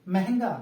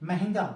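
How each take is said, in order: The two takes are said the same way.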